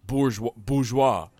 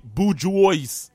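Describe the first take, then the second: First: Bourgeois as boor-ZHWAH, slowly; slow, careful French-style bourgeois, boozh-WAH; French pronunciation. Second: Bourgeois as boo-JOYSE, loud and slow; high, drawn-out, silly bourgeois as boo-JWOYS; phonetic, as spelled. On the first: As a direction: silent S in bourgeois, ending on WAH. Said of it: "Bourgeois is really said". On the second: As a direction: sound out every letter of bourgeois, final S included. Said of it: "it's like bourgeois". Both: Shown as a demonstration.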